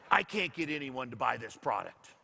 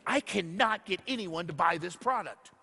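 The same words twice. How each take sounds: First: Said in the usual way. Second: "cannot" spelled out with a firm push on "not"; insistent repeat. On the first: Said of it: "I had a lady come up to me and she goes". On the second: Retold or imitated. Lady repeats her complaint to Jeff, stressing "cannot". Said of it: "Did you not hear me?".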